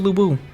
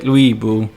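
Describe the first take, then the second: First: The first syllable is a plain Lu, no w. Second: The first syllable has a soft w after the L. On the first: "Stick with Lu Bu" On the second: "I know it's supposed to be like Louis Bu"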